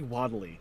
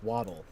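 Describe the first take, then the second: First: The word ends with an added 'ee' sound. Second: The word ends with a plain 'l' sound. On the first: The speaker calls it wrong. "I always say Waddly" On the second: The speaker calls it right. "It's Waddle"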